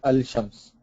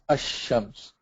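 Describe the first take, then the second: First: The lam is sounded before a single sh. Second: The lam is silent and the sh is doubled. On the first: The speaker calls it wrong. "you cannot say al-shams" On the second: The speaker calls it right. "put a shadda on the sheen"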